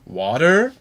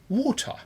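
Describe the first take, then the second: First: It is said in an American accent. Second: It is said in a British accent. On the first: "Da sagt der Amerikaner Water" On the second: "der Brite teilweise Water"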